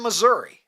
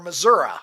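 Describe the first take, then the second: First: It is said with the ordinary pronunciation. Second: It is said with an older, folksy pronunciation.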